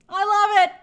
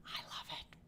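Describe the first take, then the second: First: Higher and louder, belting it out; loud gush. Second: Breathy stage whisper echo; secretive whispered echo. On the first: Real, not acted. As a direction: throw it out big and gleeful. Gushing over Slytherin fans. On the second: Pretend. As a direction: hush it right after the shout. Repeats it as an echo.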